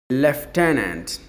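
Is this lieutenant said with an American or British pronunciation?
British. It is said with a British pronunciation. "But the British people say lieutenant"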